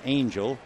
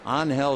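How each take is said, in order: First: The middle consonant sounds like an English j. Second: The middle consonant sounds like a breathy h. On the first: The speaker calls it wrong. "At first glance, you figure it's Angel" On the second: The speaker calls it right. "They do not pronounce the G"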